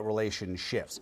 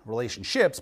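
First: Relationships said as "relation-shifts", ending softly. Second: Said in the usual way. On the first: Shown as a demonstration. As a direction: turn the "ships" of relationships into "shifts". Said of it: "but relationships". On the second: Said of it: "not relationships".

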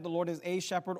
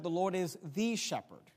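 First: "a" stressed, pronounced "ay". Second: Emphatic "the", set apart before shepherd; stress on THE. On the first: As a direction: point up "a" as a full "ay". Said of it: "could have made a doctrinal statement". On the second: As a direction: lean firmly on "the". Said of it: "he could have been more emphatic". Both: Shown as a demonstration.

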